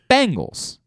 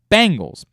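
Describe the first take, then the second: First: The first syllable sounds like 'bang'. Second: The same.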